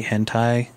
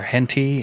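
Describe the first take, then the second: First: "hentai" said HEN-tie, ending on a clear tie; "hentai" with the full tie diphthong at the end; correct pronunciation. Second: "henty" said HEN-tee, ending on a long ee; "henty" with a flat ee sound at the end; mispronounced. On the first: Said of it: "or henty". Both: Shown as a demonstration.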